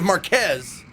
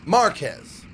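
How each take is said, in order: First: Marquez with the weight on QUEZ; stress on second syllable. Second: Marquez with the AH emphasized; stress on first syllable. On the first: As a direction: say Marquez leaning on the last syllable. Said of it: "Oh, instead of Marquez". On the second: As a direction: punch MAR in Marquez, let QUEZ fall. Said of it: "emphasize the ah sound". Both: Shown as a demonstration.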